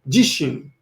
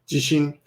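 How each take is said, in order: First: The first syllable is stressed. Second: The first syllable is not stressed. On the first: It means myself. "I guess you want to stress the first" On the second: It means earthquake. "number two and three are pronounced exactly the same"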